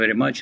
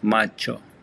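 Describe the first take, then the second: First: It is said with a plain English pronunciation. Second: It is said with an Italian-style pronunciation.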